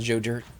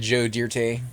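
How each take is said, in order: First: The last name is one plain syllable. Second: The last name has an extra 'ay' syllable. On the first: "instead of Joe Dirt" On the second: "Joe Dirte instead of Joe Dirt"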